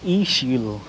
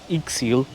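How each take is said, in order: First: The middle consonant is a 'sh' sound. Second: The middle consonant is a 'ks' sound. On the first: The speaker calls it right. "used as a S H sound, like a sh" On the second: The speaker calls it wrong. "So it's not Ixil, even though it's spelled I X I L"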